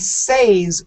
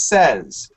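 First: The word does not sound like 'sez'. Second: The word sounds like 'sez'. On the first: The speaker calls it wrong. "we don't say says" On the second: The speaker calls it right. "we says says. ... S-E-Z. The sound is like says"

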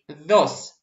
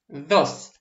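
First: The d is made with tongue between teeth. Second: The same.

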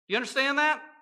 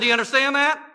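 First: It is said in his normal speaking voice. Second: It is barked like a drill instructor.

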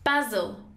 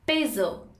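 First: It is said with a British pronunciation. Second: It is said with an American pronunciation. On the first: "And in British it's pronounced as basil" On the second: "In American it's pronounced as basil"

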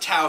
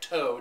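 First: It does not sound like towing a car. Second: It sounds like the word for towing a car. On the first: This is how locals in Texas say it. "But we pronounce it Tow here in Texas" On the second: This is how the spelling suggests it. "even though it's spelt like tow, T-O-W, like you're getting your car towed"

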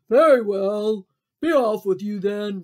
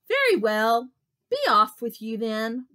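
First: It is said in a gruff troll voice. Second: It is said in a plain, ordinary voice.

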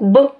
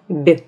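First: The consonant is hard, without palatalization. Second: The consonant is soft, with palatalization. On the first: "согласный твердый звук «б»" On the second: "согласный мягкий звук «б»"

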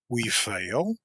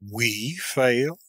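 First: It is a quick, scornful question. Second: It is an outraged question stressing we. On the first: The speaker scornfully doubts that they could fail. "a quick, contemptuous interrogation" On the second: The speaker is outraged at the idea that they could fail. "An accent of indignant astonishment, laying the principal emphasis on the word "we.""

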